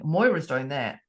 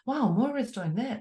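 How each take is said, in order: First: It sounds grudging and resentful. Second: It sounds warm and admiring.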